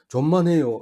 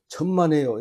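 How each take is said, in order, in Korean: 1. j 소리로 시작해요. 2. ch 소리로 시작해요.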